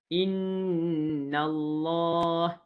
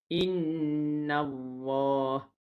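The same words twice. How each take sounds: First: The l is made with the tongue tip. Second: The l is made with lower lip on teeth. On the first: The speaker calls it right. "Huruf lam makhrajnya di hujung lidah bertemu dengan belakang gigi atas" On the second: The speaker calls it wrong. "Itu bacaan yang salah"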